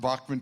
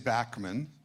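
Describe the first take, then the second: First: The first syllable sounds like 'bock'. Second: The first syllable sounds like 'back'. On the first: This is the German-style version used publicly. "put B O C K. That's so everyone pronounced it that way. So I learned to say" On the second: This is how the family said it growing up. "I grew up in Winnipeg. We were taught to say Backman"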